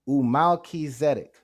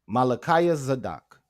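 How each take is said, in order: First: The word uses different vowels like 'u', 'i', 'e'. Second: Every vowel in the word is an 'a' sound. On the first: The speaker calls it right. "If you read it with the vowel sounds, it says" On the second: The speaker calls it wrong. "with only A class vowels, it will sound like this"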